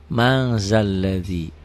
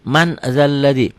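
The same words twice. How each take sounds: First: "mang zalladhi" with the N turned to a held ng; nasalised ikhfa N. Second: Said in the usual way. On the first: Shown as a demonstration. Teacher shows students how man is read, "mang" with a held ng. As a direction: hold a slow ng in "mang" before "zalladhi". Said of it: "dibacanya ada G-nya". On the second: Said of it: "Tulisannya man".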